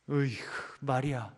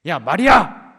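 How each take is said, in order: First: Soft, fed-up 으이구 before the name; exasperated sigh. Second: Loud barking call of 야, 마리아; harsh shout. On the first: Preacher shows a second wrong way, a soft tutting sigh. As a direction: tut at her, quietly annoyed. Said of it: "이렇겠습니까?". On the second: Preacher shows a wrong way Jesus might call Mary, shouting. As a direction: yell the name like a scolding. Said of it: "이렇게 하셨겠어요?". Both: Shown as a demonstration.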